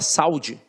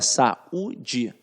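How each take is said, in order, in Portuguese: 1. O a e o u se juntam numa só sílaba. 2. O u fica separado, em sílaba própria. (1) "você fala saúde? Não" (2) "esta vogal fica isolada"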